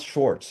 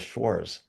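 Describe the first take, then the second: First: It is said with a t sound before the end. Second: It is said without a t sound before the end. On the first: The speaker calls it wrong. "it's not Schwartz" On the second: The speaker calls it right. "There's no T in it"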